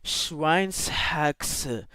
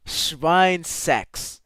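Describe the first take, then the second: First: Schweinshaxe with S, then a sounded H; slow, careful Schweinshaxe, H clearly separate. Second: Schweinsex with no H, ending like "sex"; mispronounced Schweinsex, the H swallowed; S and H merged. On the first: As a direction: say Schweinshaxe as "shwines-hax-uh". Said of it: "they're, like, independent". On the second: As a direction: run it together as "shwine-sex". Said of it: "S and the H aren't meant to be put together". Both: Real, not acted.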